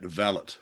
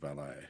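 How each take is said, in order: First: The word is said in the British way. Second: The word is said in a non-British way. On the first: "the British do pronounce uh, it valet" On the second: "you and I, we go for the valet"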